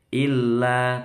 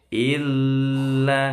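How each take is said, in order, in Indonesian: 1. Huruf l yang ganda hanya ditahan sebentar. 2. Huruf l yang ganda ditahan terlalu lama. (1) "lamnya cukup tasdid" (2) "nggak boleh terlalu panjang"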